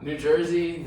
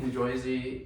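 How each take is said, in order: First: Said in the usual way. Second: Mock New Jersey accent, Jersey as "Joisey"; put-on New Jersey vowel. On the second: Shown as a demonstration. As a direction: say Jersey as JOY-zee, New Jersey style.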